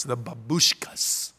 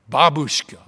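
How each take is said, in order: First: "babushkas" said slowly with a lower voice, stress unsure; trying a Russian word. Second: "Babushka" with a loud, stressed first syllable BA; corrected pronunciation. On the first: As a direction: test the word "babushkas" carefully. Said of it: "Did I do that right". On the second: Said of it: "get my accent on the right syllable". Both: Shown as a demonstration.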